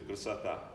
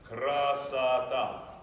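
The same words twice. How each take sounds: First: The first vowel almost disappears in fast speech. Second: The first vowel is heard, only slightly reduced. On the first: "When you speak it very fast in Russian, that first vowel disappears completely" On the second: "this one will be even more reduced"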